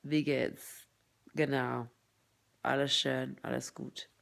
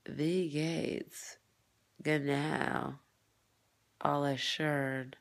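First: Brisk German with pursed, thin lips; native-style German, lips kept thin; thin-lipped German. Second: Slow German with full, loose lips; drawn-out German with rounded, heavy mouth; full-lipped German. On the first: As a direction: speak German through tight, pursed lips. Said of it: "Germans don't fall, like". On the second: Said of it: "Imagine me full, full lips". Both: Shown as a demonstration.

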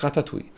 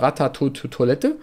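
First: Ratatouille said properly as ra-ta-tu-i; correct French name. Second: Ratatouille Toilette read out literally as written, mocking the label; misread title. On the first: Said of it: "aber es heißt Ratatouille". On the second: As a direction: read Ratatouille Toilette off the screen as a wrong version. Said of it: "Da steht zwar ... aber es heißt". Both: Shown as a demonstration.

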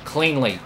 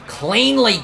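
First: Said in the usual way. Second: High, loud cry of urgency; exasperated shout. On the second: Real, not acted. Player trying to get around Newman, exasperated shout. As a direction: shout it high, stretched with frustration. Repeats it as pass fails.

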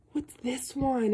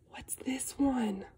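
First: Said in the usual way. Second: Whisper. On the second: Acted. Reading book to child.

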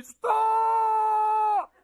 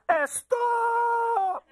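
First: High, long drawn-out shout; piercing father's yell. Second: Put-on piercing accented shout, high and drawn out; accented yell with an extra "Eh" before a long "stop"; dad's heavily accented yell. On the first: Retold or imitated. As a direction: imitate dad yelling across a crowded park. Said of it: "my father's voice piercing through the crowds". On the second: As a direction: imitate dad hollering with a thick accent. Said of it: "my father has a really bad accent".

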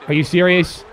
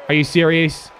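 Both takes have the same delivery.

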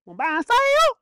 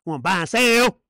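First: Very high, loud mocking question; squealed preacher's taunt; high-pitched taunt. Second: Loud challenge at usual pitch; taunting preacher. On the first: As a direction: shoot SELL way up high. Repeats the taunt, higher take. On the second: Acted. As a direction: push out the question, loud on SELL. Repeats the taunt, lower take.

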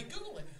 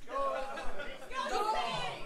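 First: Said in the usual way. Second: "Google it" stretched very slowly with a rising end; drawn out. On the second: Shown as a demonstration. Telling the crowd to look up Lemon Party, drawn out. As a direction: drag out "Google it" teasingly. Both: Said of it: "If you don't know Lemon Party".

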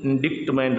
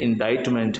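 First: इंडिक्टमेंट with the c sounded, 'dikt'; wrong pronunciation. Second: इंडाइटमेंट with no k, 'dite' like 'bite'; correct pronunciation. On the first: Teacher shows learners the mistake, इंडिक्टमेंट with a hard k. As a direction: say इंडिक्टमेंट as in-DIKT-ment. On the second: Teacher corrects the word for learners, इंडाइटमेंट with silent c. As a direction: say इंडाइटमेंट as in-DITE-ment. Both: Shown as a demonstration. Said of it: "इंडिक्टमेंट नहीं है".

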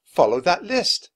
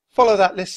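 First: Jack repeats the words slowly, thinking; slowed, puzzled repetition; drawn-out musing on the words; slow, pondering. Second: Higher and louder, firm instruction; louder, emphatic order; firm nurse. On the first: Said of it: "said Jack". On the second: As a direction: nurse says it with authority. Nurse character voiced. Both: A narrator's reading.

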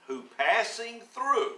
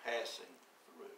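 First: Passing through drawn out high and loud; read out in the verse. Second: "passing" leaned on, low and soft; stress on passing. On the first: Preacher reading the verse aloud, rising on "passing through". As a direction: lift "passing through" slowly as scripture. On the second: Preacher explaining the verse to the congregation, leaning on "passing". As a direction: press "passing through" quietly with a falling close. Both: Shown as a demonstration. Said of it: "I want to emphasize the word".

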